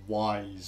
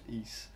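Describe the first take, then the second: First: The name sounds like the word 'wise'. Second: The name sounds like the word 'east'. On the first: It was guessed from the spelling. The speaker calls it wrong. "people would have just said like, "Oh, this is called like Wise"" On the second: It was heard in the voiced cutscenes. The speaker calls it right. "would have probably realised it was pronounced East"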